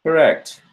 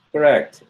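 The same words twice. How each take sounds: The two takes are said the same way.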